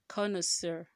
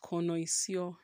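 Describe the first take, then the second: First: The last syllable sounds like 'sir'. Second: The last syllable sounds like 'seer'. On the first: The speaker calls it right. "Sir. Not seer" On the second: The speaker calls it wrong. "Not connoisseur"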